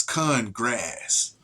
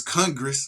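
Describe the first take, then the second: First: "con grass" slow and lower, con stressed as its own word; split wordplay. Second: Said in the usual way. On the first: Shown as a demonstration. Showing viewers Congress really says "con grass". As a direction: drag out "con grass" as two words, hitting con. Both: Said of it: "it's Congress, but it's con grass".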